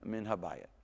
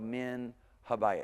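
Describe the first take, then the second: First: The words run together without a break. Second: The words are said separately, with a break. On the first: The speaker calls it right. "tie them better so that you pronounce it together" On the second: The speaker calls it wrong. "You don't go min habayat"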